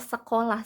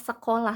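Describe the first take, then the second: First: The s and k sounds are clear. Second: The same.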